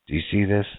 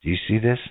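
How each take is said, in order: Both takes have the same delivery.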